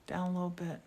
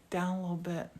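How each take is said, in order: Both takes have the same delivery.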